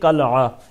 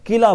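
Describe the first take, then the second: First: The first vowel is a, with a break before the end. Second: The first vowel is i, with no glottal break. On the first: The speaker calls it right. "दुरुस्त जो तलफ़ुज़ है वो कलआ है" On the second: The speaker calls it wrong. "जो कि गलत है, किला बोलते हैं"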